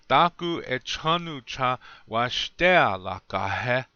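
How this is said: It has the Lakota melody and tones.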